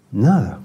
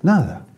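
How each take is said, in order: First: Said in the usual way. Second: "Nada" snapped out high and final; "Nada" said high, falling sharply; emphatic answer. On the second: Shown as a demonstration. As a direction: hit "Nada" high with a hard fall. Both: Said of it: "¿Qué tiene que ver eso con estar bien con Dios?".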